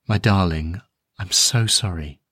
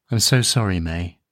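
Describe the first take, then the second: First: Soft, tender, a little lower as it settles; father holding his daughter, softly repeating sorry. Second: Tender and soft, yet clear enough to carry; a gentle apology meant to be heard; father to his small daughter, a soft tender apology. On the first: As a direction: repeat the apology gently, a touch lower. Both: A narrator's reading. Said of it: "saying in a very soft voice".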